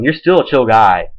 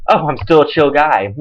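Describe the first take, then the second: First: Said in the usual way. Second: Dry sarcastic repeat of "chill guy"; mock being flattered; sarcastic echo. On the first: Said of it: "don't get me wrong". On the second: Real, not acted. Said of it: "That makes you feel so much better".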